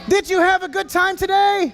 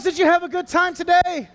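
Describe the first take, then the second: First: Shouted again with more energy; louder retake. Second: Said in the usual way. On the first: Real, not acted. Host repeating his question to the kids, shouted. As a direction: call it out to the whole arena. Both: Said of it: "repeated louder for the crowd".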